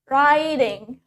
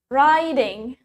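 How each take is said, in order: First: It is said in an American accent. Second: The same.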